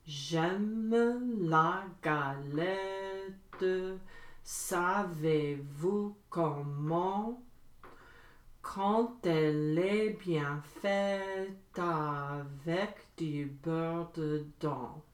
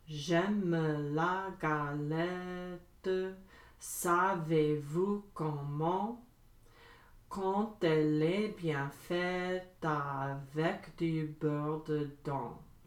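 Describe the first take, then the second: First: It is said at medium speed. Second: It is said fast.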